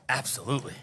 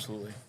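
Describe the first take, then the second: First: It is said passionately, with feeling. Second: It is said flatly, without passion.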